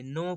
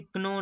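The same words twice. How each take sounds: First: "नो" as no, starting straight on N; silent K. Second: "कनो" with a K before the N; wrong sounded K. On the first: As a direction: drop the K entirely and say "नो". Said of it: "नो पढ़ेंगे". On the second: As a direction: say "कनो" as k-no, voicing the silent letter. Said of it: "इसे कनो नहीं पढ़ेंगे". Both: Shown as a demonstration.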